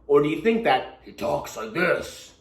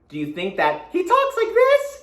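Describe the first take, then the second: First: It is said in a gruff goblin voice. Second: It is said in a cheerful, happy voice.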